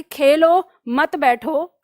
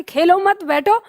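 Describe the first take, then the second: First: Slow "खेलो", pause, then "मत बैठो"; pause after खेलो. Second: "खेलो मत" together, then "बैठो" rising; pause after मत. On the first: Shown as a demonstration. Teacher gives a supposed order, pause after "Khelo". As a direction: break after "Khelo", keep "मत बैठो" joined. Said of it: "मान लो कहा कि". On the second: Retold or imitated. Teacher quotes mother's reminder, pause after "मत". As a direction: run "खेलो मत" as one, lift "बैठो". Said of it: "mummy ने कहा कि".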